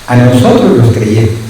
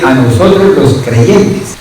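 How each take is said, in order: First: "nosotros" repeated lower, settling down with a falling end. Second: "nosotros" lifted with a rising end, pressed for attention; rising emphasis on "nosotros" to hold the congregation; emphatic rising repeat. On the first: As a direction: drop the pitch and close it firmly on "creyentes". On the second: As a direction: lean on "nosotros" and let the line rise. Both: Shown as a demonstration. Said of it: "oiga bien".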